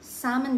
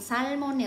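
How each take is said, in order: First: It is said the standard way. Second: It is said with a Bisaya accent. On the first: "Salmon daw yung pronunciation nito" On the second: "kung sa Bisaya to, kung sa amin"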